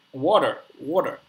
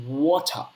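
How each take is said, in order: First: "water" said the American way with a sounded final r; American accent. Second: "water" drawn out in British, no r at the end; British accent. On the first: Showing his friend how Americans say it, American accent on "water". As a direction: say "water" in American, the r pronounced at the end. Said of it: "in the American accent". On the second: Contrasting it with American for his friend, British accent on "water". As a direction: say "water" slowly with a British open ending, r dropped. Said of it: "and in British accent". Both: Shown as a demonstration.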